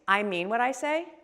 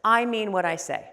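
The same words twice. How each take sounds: First: The voice rises at the end. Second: The voice falls at the end. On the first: It sounds like a question and lands less firmly. The speaker calls it wrong. "The upward inflection, if I were to say the same things" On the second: The speaker means it firmly and can be relied on. The speaker calls it right. "A downward inflection says"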